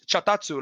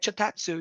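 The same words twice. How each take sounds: First: The name is said harshly and roughly. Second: The name is said softly and lightly. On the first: This is how the Spanish dub says the name. "but in Spanish, chatatsu, like it's really like rough" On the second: This is how the name is meant to sound. "You're supposed to say it like"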